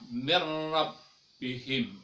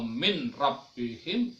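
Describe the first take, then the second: First: The n is merged into the following r. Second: The n is pronounced clearly before the r. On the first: The speaker calls it right. "dia meleburkan" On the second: The speaker calls it wrong. "bukan ... min rabbihim"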